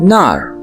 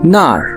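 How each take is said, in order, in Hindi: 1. शब्द आर की आवाज़ के साथ खत्म होता है। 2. शब्द आर की आवाज़ के साथ खत्म होता है।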